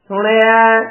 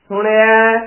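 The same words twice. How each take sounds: No difference in how they are said.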